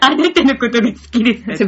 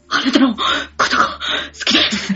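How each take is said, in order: First: It sounds offhand and amused, almost mocking. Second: It sounds strained, as if under physical effort. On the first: "漫画読みながら。 バカにしてるね。" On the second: "腹筋運動をしながら"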